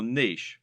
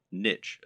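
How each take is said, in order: First: Said in the usual way. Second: "niche" said as NITCH, rhyming with rich; "niche" pronounced like "nitch"; alternative pronunciation. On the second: Shown as a demonstration. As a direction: say "niche" with a short i and a tch ending. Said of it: "as some people pronounce it".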